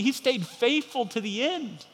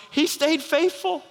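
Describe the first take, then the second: First: Said in the usual way. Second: High, slow, marvelling cry; angels' thrilled slow cry; awed exclaim. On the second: Acted. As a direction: let the words ring with wonder.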